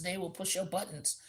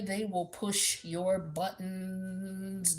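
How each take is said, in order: First: Said in the usual way. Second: Very slow, stretched warning; drawn out. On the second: Acted. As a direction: drag every word out slowly. Warning about a petty partner.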